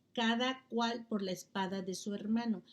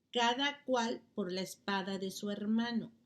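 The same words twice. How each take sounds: Both takes have the same delivery.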